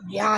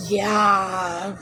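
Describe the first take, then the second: First: Said in the usual way. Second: A drawn-out mock "Yeah"; lightly mocking impression of Ariel; mimicking her "yeah". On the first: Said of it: "you can just say". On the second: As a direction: imitate her lazy "Yeah". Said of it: "it's how she says it".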